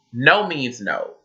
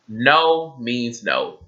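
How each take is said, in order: First: NO means NO, slow, each word pressed down; emphatic no means no. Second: "No means no" drawn out very slowly, falling; slower emphatic no means no. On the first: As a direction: lean hard and slow on "no means no". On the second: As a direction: stretch out "No means no" with weight. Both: Shown as a demonstration.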